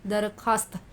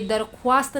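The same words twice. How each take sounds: First: दरख्वास्त as 'darkhaast', no w sound; silent vav. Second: दरख्वास्त as 'darkhu-aast', with an audible w; vav wrongly sounded. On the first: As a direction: go from kh straight to aa in दरख्वास्त. (दरख्वास्त में वाव बिना बोले) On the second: (दरख्वास्त में वाव की आवाज़ निकालकर) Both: Shown as a demonstration. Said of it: "दरख्वास्त नहीं पढ़ेंगे".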